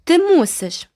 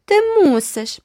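First: High loud stubborn demand; insist, won't back down. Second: Very high, loud mocking echo; shrill it back to tease; mocking repeat. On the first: Girl insisting to the boy, stubborn. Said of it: "уперто наполягала Айві". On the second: Sister mocking the girl, very high. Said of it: "повторила Джеральдіна". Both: A narrator's reading.

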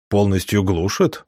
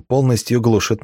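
First: Surprised echo, ГЛУШИТ rising as a question. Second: Said in the usual way. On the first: A narrator's reading. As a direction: ask "глушит" with a rise, mildly taken aback. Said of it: "удивился он". (удивлённый вопрос с подъёмом на «глушит»)

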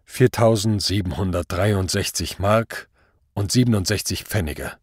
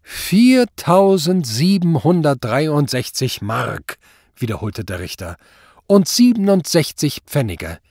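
First: Sober, unemotional figure; restrained defendant's answer; matter-of-fact accused. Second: High, slow, drawn-out disbelief; incredulous judge, raised pitch; scandalised repetition. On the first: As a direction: state the sum without fuss. Accused states his savings soberly. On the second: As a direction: repeat the sum mockingly, stretching it out. Judge repeats the sum, outraged. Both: A narrator's reading.

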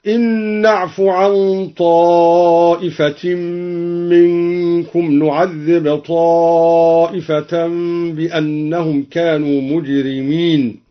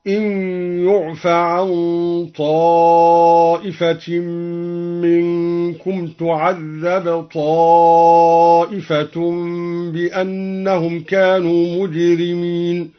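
First: Said in the usual way. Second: "يعف" as yu'fa, "تعذب" as tu'adhdhab; slow recitation, passive vowels on "يعف" and "تعذب"; passive-verb reading. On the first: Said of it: "بياء مضمومة بدل النون". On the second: Shown as a demonstration. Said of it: "بياء مضمومة بدل النون وفتح الفاء". ("يعف" بضم الياء وفتح الفاء و"تعذب" بضم التاء وفتح الذال)

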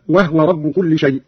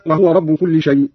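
First: وهو said wahwa, no vowel on ه; still ha. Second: Said in the usual way. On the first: Shown as a demonstration. Teacher showing Qalun's reading, وهو as wahwa. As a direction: close onto the ه in وهو, wah-wa. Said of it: "بإسكان الهاء هكذا". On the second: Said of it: "قرأ قالون بإسكان الهاء".

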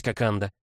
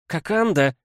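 First: Said in the usual way. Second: High, loud indignant cry; exclaiming. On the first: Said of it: "сказала Шри Кимбоджи". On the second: Acted. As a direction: call his name out in protest. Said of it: "воскликнула Шри Кимбоджа".

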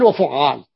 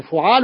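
First: وفعال with a held, doubled ع; doubled middle consonant. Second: فعال with a single, light ع; light middle consonant. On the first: Teacher showing students the pattern, وفعال with doubled ع. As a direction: lean on a geminated ع in وفعال. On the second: Teacher showing students the pattern, فعال with undoubled ع. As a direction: say فعال without doubling the ع. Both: Shown as a demonstration. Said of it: "بالتشديد أو التخفيف".

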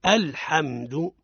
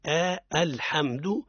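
First: الحمد said slowly with the opening hamza clearly sounded; correct demo. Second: آ الحمد with a drawn-out آ before the hamza; wrong demo. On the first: Teacher showing listeners the correct start, slow and careful. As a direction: stretch out الحمد, hamza crisp and light. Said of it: "وتقف تقول". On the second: Teacher imitating a common mistake, drawn-out آ. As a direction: stretch آ into آ الحمد. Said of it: "ما لا نقول عند الابتداء". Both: Shown as a demonstration.

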